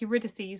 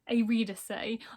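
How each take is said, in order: First: The name has its usual English pronunciation. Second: The name has a Spanish-style pronunciation. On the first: This is how the name is said in Greek mythology. "I would say that as like Eurydice, like it is in um, Greek mythology" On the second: This is how the audiobook says the name. "I was listening to the audiobook of this and I think it's like Eurydice"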